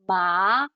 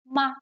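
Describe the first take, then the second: First: The pitch rises from middle to high. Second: The syllable is light with a slight drop. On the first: It can mean hemp. "it goes up. So it, it's also called a rising tone" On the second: It can be a question particle. "just a really light drop"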